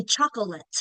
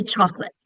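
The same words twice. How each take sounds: First: "chocolate" in three syllables, CHOC-o-lit; unreduced middle syllable. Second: "chocolate" in two syllables, CHOC-lit; quick reduced form. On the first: Teacher showing what we don't say, three-syllable "chocolate". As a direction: sound out the middle vowel of "chocolate". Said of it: "We don't say chocolate". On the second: Teacher showing the usual quick form, two-syllable "chocolate". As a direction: drop the middle vowel of "chocolate". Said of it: "Wanna make it quick". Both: Shown as a demonstration.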